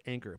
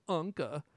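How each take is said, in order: First: Anker said plainly as AN-ker; correct pronunciation. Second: Anke said the German way, AHN-keh, with no r; German accent. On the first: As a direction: give Anker its ordinary English reading. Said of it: "they're pronounced Anker". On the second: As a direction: say Anke as a German would, with an open final vowel. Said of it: "say it with a German accent". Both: Shown as a demonstration.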